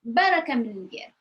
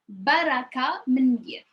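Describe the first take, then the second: First: It is said with a natural, expressive changed tone. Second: It is said plainly, with careful teaching intonation.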